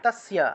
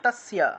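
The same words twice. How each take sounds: No difference in how they are said.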